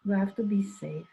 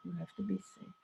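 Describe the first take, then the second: First: Said in the usual way. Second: Much softer, almost to himself; soft repeat. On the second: Retold or imitated. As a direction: echo the warning quietly. Repeats the warning twice.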